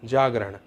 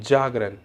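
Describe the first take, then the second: Both takes have the same delivery.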